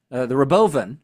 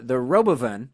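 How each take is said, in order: First: "Robovan" stressed on the middle syllable, ro-BO-van; misplaced stress on "Robovan", leaning on BO; wrong stress. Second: Said in the usual way. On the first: Shown as a demonstration. Podcast host quoting Elon, stressing "Robovan" on the wrong syllable. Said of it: "I put the emphasis on the wrong syllable there". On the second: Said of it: "I put the emphasis on the wrong syllable".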